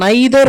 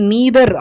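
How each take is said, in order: First: The first vowel sounds like 'eye'. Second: The first vowel sounds like 'ee'. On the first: "ஒன்று நாம் நைதர் அப்படின்னு சொல்லலாம்" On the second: "இல்லை நீதர் அப்படின்னு சொல்லலாம்"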